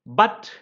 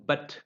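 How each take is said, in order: First: BUT with a full, stressed vowel; strong form. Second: BUT reduced to a short "b't"; weak form. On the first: Teacher listing conjunction forms, strong form. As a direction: say BUT slowly as a full word. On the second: Teacher listing conjunction forms, weak form. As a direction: say BUT unstressed with a neutral vowel. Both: Shown as a demonstration. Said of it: "it has a weaker form".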